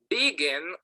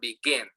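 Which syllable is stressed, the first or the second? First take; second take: first; second. First: The stress is on the first syllable. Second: The stress is on the second syllable. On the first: The speaker calls it wrong. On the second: The speaker calls it right.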